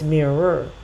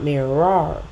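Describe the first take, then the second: First: The stress is on the first syllable. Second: The stress is on the second syllable. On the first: The speaker calls it right. "mirror goes down" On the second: The speaker calls it wrong. "not mirror"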